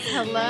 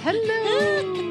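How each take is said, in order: First: It is said in a normal voice. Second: It is said in a high-pitched voice.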